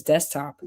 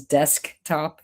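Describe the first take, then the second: First: DESKTOP run together as "destop"; everyday pronunciation. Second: DESKTOP split, with a crisp K before the T; over-careful pronunciation. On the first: Showing how everybody says it, casual pronunciation. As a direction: drop the K in "desktop", quickly. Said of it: "Everybody says desktop". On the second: Showing what nobody says, over-careful pronunciation. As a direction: say "desktop" as DESK, then TOP. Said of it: "nobody says desktop". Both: Shown as a demonstration.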